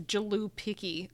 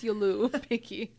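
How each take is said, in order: First: The name begins with a 'j' as in jam. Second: The name begins with a 'y' as in yes. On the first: The speaker calls it wrong. "I don't think you pronounce the J as J. So I don't think it's Jalupiki" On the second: The speaker calls it right. "I think it's Yulupiki"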